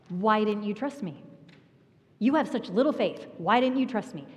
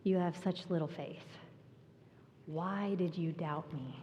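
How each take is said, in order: First: A stern slap-on-the-wrist rebuke; scolding tone. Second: Soft, quieter and tender; gentle Jesus. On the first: Retold or imitated. What a hard heart hears from Jesus, scolding. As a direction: snap it like a reprimand. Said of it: "That's what a hard heart hears". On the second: Acted. Jesus gently asking Peter why he doubted, tender. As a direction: say it as a loving reassurance. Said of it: "But that's not what Jesus said".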